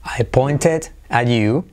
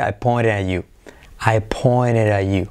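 First: "pointed" slowly with a crisp T, "poin-tet"; T sounded. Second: "pointed at you" softened to "poinere a you". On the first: Teacher giving the careful form, "pointed" with full T. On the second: Teacher showing the linked form, "pointed at" with T as R. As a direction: turn the T's of "pointed at" into light taps. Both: Shown as a demonstration. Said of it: "La T como R".

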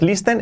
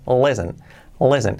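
First: LISTEN as "lees-ten", rising; mispronounced listen. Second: LISTEN as "lessen", silent t, falling; correct pronunciation. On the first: Teacher rules out this pronunciation, mispronounced listen. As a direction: sound the t in "listen" by mistake. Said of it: "esta pronunciación no es". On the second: Teacher gives the right pronunciation, correct pronunciation. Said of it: "esta pronunciación no es listen, es". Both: Shown as a demonstration.

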